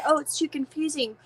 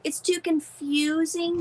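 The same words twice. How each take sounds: First: Lightly mocking quote, a bit higher; mildly put-on objection; imitating complainers. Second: Higher, drawn-out mock complaint; slow, exaggerated echo of an objection; mocking complainers. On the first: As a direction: echo other people's complaint. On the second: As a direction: stretch out CONFUSING to ridicule it. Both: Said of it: "People said".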